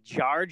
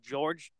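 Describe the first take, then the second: First: The vowel sounds like 'ar', a local accent. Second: The vowel sounds like the standard 'or'. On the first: "but they say Jarge instead" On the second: "I guess they say George"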